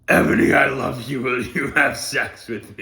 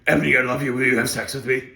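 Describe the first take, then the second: First: It is said at a normal pace. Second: It is said fast, like a car commercial.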